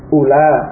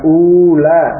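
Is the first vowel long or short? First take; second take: short; long. First: The first vowel is short. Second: The first vowel is long. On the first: The speaker calls it right. "Hamzah yang bombah tersebut dibaca pendek" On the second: The speaker calls it wrong. "Bukan ula"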